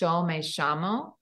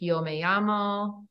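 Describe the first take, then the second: First: The double L is said as a sh sound. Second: The double L is said as a y sound. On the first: This is the Rioplatense regional pronunciation. "they say, ... for any double L and any Y, it's a sh sound" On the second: This is the usual pronunciation across most Spanish-speaking regions. "instead of saying like"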